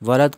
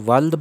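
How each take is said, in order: First: A vowel separates l and d: wa-lad. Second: The l and d run together: wald. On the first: The speaker calls it right. "वलद का मतलब लड़का है" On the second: The speaker calls it wrong. "हम इसको वल्द बोलते हैं। वल्द इसका गलत तलफ़ुज़ है"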